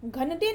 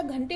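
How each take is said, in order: First: घंटे as ghan-te with a separate n; wrong pronunciation. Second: Said in the usual way. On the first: Shown as a demonstration. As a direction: pull the n of घंटे apart from the t. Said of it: "घंटे नहीं होता". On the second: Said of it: "घंटे होता है".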